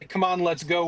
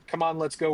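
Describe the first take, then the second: First: It sounds excited and upbeat. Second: It sounds sad and heavy.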